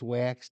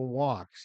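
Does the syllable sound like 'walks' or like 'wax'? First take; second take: wax; walks. First: The vowel sounds like the one in wax. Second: The vowel sounds like the one in walks. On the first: The speaker calls it wrong. "but it's wax to the lax" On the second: The speaker calls it right. "The wax is spoken walks if you say it right"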